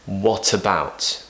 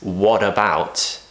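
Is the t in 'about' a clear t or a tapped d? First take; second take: clear t; tapped d. First: The t is a clear, crisp t sound. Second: The t sounds like a quick tapped d. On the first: The speaker calls it right. "We need to say" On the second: The speaker calls it wrong. "we don't want to pronounce that T as"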